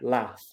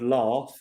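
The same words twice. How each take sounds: First: It is said in a northern English accent. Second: It is said in a non-northern English accent. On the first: "up in the north of England, they would say laugh" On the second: "I would laugh"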